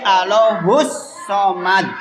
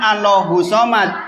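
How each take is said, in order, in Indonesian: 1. Bunyi s-nya dibaca panjang dan dobel. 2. Bunyi s-nya pendek dan tidak dobel. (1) "Hus ada tasdidnya" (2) "Boten Allahu somad"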